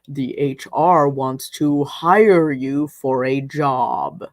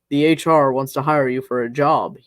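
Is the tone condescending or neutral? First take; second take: condescending; neutral. First: It is said condescendingly, each word enunciated. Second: It is said in a plain, neutral tone. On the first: "He enunciated each word as it came out, as if I wouldn't understand him" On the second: "I forgot to be condescending"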